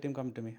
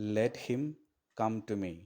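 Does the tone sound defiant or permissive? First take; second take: permissive; defiant. First: It is said with a mild, permitting tone. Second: It is said with a stubborn, defiant tone.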